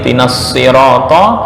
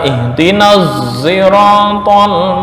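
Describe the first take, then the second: First: The first sound of sirata is a plain s. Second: The first sound of sirata leans toward z. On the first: This is the original reading. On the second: This is one narrator's reading of the word. "dibaca ihtinaz siratal mustaqim, hampir condong ke huruf za"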